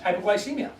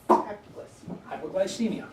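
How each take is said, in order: First: Said in the usual way. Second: Each syllable of Hypoglycemia drawn out slowly; slow, spelled out. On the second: Shown as a demonstration. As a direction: say Hypoglycemia very slowly, as if writing it on the board. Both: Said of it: "And what do they call that?".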